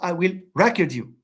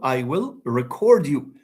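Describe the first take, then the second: First: The stress is on the first syllable. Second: The stress is on the second syllable. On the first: The speaker calls it wrong. "It's not" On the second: The speaker calls it right. "For example"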